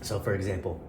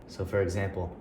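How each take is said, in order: No difference in how they are said.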